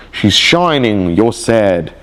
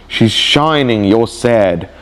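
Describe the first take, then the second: No difference in how they are said.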